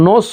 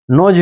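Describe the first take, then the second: First: নোস ending in a hissed s sound; the wrong way, নোস with a final s; wrong pronunciation. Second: নোজ ending in a buzzing z sound; correct pronunciation. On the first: Teacher warning students off the s ending, hissed s. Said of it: "হলো না". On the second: Teacher confirming the z ending for students, buzzing z. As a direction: say নোজ with a voiced z at the end. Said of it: "নোজ হয়েছে". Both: Shown as a demonstration.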